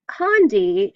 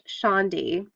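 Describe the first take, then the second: First: The word begins with a hard k sound. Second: The word begins with an sh sound. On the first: The speaker calls it wrong. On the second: The speaker calls it right. "pronounced Shandi"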